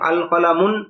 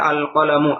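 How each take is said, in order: First: The word ends with an added n sound. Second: The word ends on a vowel without n. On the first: The speaker calls it wrong. "শেষে তানবিন পড়া ভুল" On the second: The speaker calls it right. "এটার উচ্চারণ হবে আল কলামু"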